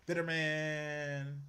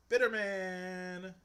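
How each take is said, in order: First: Very slow, drawn-out mock label in an odd voice. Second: Very slow and a bit higher, pressed harder; drawn-out verdict. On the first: Judging the man in the clip, a slow drawn-out mock. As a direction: stretch each word like a mock verdict. Mocking the clip's speaker. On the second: Pretend. Repeating his verdict on the clip, slow and emphatic. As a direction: lean on it, stretched and emphatic.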